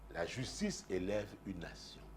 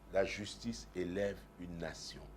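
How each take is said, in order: Both takes have the same delivery.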